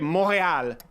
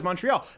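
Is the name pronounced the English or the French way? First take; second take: French; English. First: The name is pronounced the French way. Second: The name is pronounced the English way. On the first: The speaker calls it wrong. "I don't say Montréal in English" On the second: The speaker calls it right. "they know it is Montreal"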